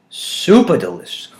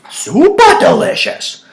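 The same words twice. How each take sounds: First: Said in the usual way. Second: "Super delicious!" squealed high, loud and slow; over-the-top praise of the beer; hammed-up rave. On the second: Shown as a demonstration. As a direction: gush over the homebrew.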